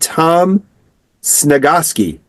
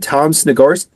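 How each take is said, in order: First: The surname is said without an R sound. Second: The surname is said with an R sound. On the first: The speaker calls it right. "There you go" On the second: The speaker calls it wrong. "I keep putting an R in your name"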